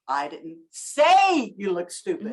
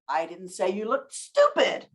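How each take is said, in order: First: The stress is on the word say. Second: The stress is on the word stupid.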